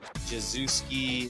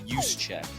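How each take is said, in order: First: The name is said as Jezuski. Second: The name ends like the phrase 'use a check'. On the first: Other people say it this way. The speaker calls it wrong. "I've literally heard everything under the sun" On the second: This is how the name is really said. The speaker calls it right. "It's pronounced Juszczyk, like you use a check"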